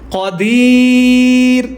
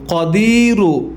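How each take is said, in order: First: The word ends on the bare r sound. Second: The word ends with a short u vowel. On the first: "ওয়াকফ হলে কি হবে" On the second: "র পেশরু"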